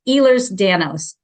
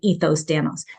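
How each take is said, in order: First: The first part is pronounced like 'Ehlers'. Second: The first part is pronounced like 'Ethos'. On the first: The speaker calls it right. "I want to say this correctly" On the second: The speaker calls it wrong. "I always want to say"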